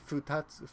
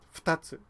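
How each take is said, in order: First: The vowel after f is clearly voiced. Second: The vowel after f is nearly silent. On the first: The speaker calls it wrong. "you don't really say futatsu" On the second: The speaker calls it right. "So between the F and T, ... you say fu, fu, futatsu"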